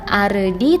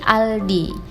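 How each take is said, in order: First: The middle consonant is an r sound. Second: The middle consonant is an l sound. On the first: The speaker calls it right. "maka dibacanya bukan Ardi" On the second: The speaker calls it wrong. "tetapi Aldi karena di belakangnya tidak ada vokal"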